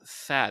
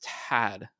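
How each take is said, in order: First: The name begins with a soft TH sound. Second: The name begins with a hard T sound. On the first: The speaker calls it wrong. "it's not Thad" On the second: The speaker calls it right. "it's Tad"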